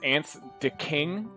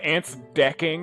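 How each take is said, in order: First: The name ends with a separate word 'king'. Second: The name is run together around 'deck'. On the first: This is how the owner intends it. "supposed to be pronounced" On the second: This is a joking personal version. "I've always just pronounced it"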